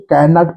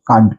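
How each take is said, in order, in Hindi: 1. इसे दो पूरे, अलग शब्दों की तरह कहा जाता है। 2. इसे एक छोटे, संकुचित शब्द की तरह कहा जाता है। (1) "इसको कैन नॉट पढ़ेंगे" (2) "इसको कांट पढ़ेंगे"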